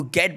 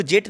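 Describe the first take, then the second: First: "गेट" with a hard g, as in go; the right take: "गेट" with a hard g; "गेट" opens on a hard g like "gun"; correct hard g. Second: The wrong take: "जेट" with a j sound; "जेट" starting like "jam"; wrong "jet" sound. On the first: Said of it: "आपको गेट बोलना पड़ेगा". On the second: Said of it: "इसको जेट नहीं". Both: Shown as a demonstration.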